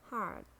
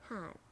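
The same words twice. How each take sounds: First: "hard" with a sounded American R; American "hard", curl the R before the end; American accent. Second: "hard" with a British silent R; British "hard", open ah before the end; British accent. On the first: Teacher models the word for learners, American accent. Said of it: "R in American English". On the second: Teacher models the word for learners, British accent. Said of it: "in British English". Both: Shown as a demonstration.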